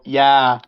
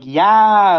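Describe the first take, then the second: First: The word is said at normal volume. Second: The word is yelled loudly. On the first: The listener might not hear it. "in a normal tone" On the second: The listener is far away and must hear it. "I said it in a yelling way"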